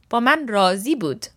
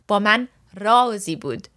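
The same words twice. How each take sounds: First: Razi is stressed on its second syllable. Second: Razi is stressed on its first syllable.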